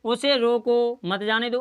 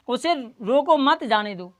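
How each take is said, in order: First: Drawn-out "उसे रोको", break, then "मत जाने दो"; pause after रोको. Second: Group "रोको मत", break before "जाने दो"; pause after मत. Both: Shown as a demonstration. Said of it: "अर्थ बदल गया".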